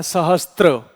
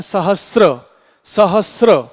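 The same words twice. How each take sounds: First: सहस्त्र said as sa-ha-stra, with a t slipped in before r; सहस्त्र, the common mistaken stra ending; wrong pronunciation. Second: सहस्र said as sa-ha-sra, no t sound before r; सहस्र, ending crisply in sra; correct pronunciation. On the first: Teacher to students, mimicking the usual error: सहस्त्र with t. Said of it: "इसका उच्चारण किया जाता है". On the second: Teacher to students, showing the right way: सहस्र without t. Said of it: "वास्तव में इसका उच्चारण है". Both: Shown as a demonstration.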